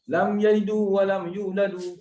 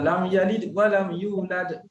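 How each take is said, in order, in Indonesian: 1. Setiap kata kerja berakhir dengan vokal 'u' tambahan. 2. Setiap kata kerja berakhir dengan konsonan tanpa vokal. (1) "Mana ada orang baca" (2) "Mesti dia baca"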